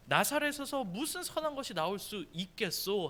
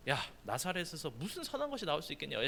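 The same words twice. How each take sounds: First: Solemn Bible-verse delivery; formal scripture reading. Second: Softer, offhand street-talk version of the verse; casual paraphrase. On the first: Pastor reading Nathanael's reply to youth, formal reading. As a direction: read the archaic verse in a set-apart reading voice. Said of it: "나다나엘이 그에게 말하기를". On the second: Pastor retelling Nathanael's words in teen slang, casual and soft. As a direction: toss it off like a skeptical teen. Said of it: "우리 말로 얘기하면 이렇게 얘기하는 거예요". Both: Shown as a demonstration.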